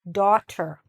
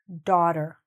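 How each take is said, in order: First: The middle T is pronounced clearly and crisply. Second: The middle T is softened and barely heard. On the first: The speaker calls it right. "it's probably easier and better and clearer if you do pronounce the T" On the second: The speaker calls it wrong. "some people don't pronounce the T as much and they say daughter"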